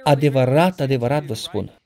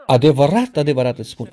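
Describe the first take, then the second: First: Said in the usual way. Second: With passion. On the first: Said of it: "Ca atunci când Iisus zice". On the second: Shown as a demonstration. Jesus speaking in a room, saying it with passion. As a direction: say Adevărat, adevărat with urgent passion. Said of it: "ar însemna că vorbește cu pasiune".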